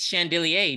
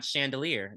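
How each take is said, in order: First: "chandelier" ending mock-French, in -ay; corrected pronunciation. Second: "chandelier" ending in plain -eer; rejected pronunciation. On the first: Co-host joking about pronunciation, fancy "chandelier". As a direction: say "chandelier" as shan-dil-ee-ay. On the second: Co-host joking about pronunciation, everyday "chandelier". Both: Shown as a demonstration. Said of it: "not chandelier".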